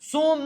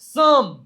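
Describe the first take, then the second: First: The vowel sounds like oh. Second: The vowel sounds like uh. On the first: The speaker calls it wrong. "સોમ નહીં" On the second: The speaker calls it right. "ઓ નો ઉચ્ચાર અ જેવો પણ થાય છે"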